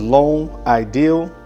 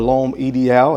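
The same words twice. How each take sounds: First: The name is said with an English accent. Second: The name is said with a French accent.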